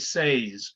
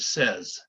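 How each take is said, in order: First: The vowel sounds like the 'ay' in say. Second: The vowel sounds like the 'eh' in bed. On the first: The speaker calls it wrong. "everybody sees this and wants to say says" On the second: The speaker calls it right. "but no, it says"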